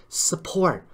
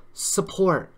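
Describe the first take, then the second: No difference in how they are said.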